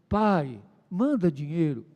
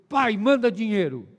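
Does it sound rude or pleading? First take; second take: pleading; rude. First: It sounds gentle and pleading. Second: It sounds rude and demanding.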